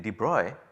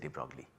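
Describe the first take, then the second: First: The name is said with European pronunciation. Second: The name is said with anglicized pronunciation. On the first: The speaker calls it right. "the correct pronunciation is apparently" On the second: The speaker calls it wrong. "I am not good at pronouncing uh, European names, I will just say"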